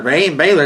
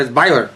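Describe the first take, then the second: First: "Baylor" said "Bay-lor", a long a as in bay; wrong way to say Baylor. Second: "Baylor" said "Bye-lor", first syllable rhymes with buy; "Baylor" with the i sound of "buy"; local Baylor. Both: Retold or imitated. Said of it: "It ain't spelled B A I. It's B A Y".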